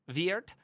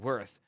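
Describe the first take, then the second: First: The name sounds like 'Veert', with a V. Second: The name sounds like the English word 'worth'. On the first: It is the name as its owner says it. "call me by my name, pronouncing it" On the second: It is a pun on the name's value. "or call me by my value"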